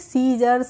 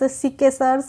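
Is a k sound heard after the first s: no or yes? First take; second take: no; yes. First: No k sound follows the first s. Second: A k sound follows the first s. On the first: The speaker calls it right. "इसको पढ़ते हैं सीजर्स" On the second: The speaker calls it wrong. "नहीं पढ़ते हैं"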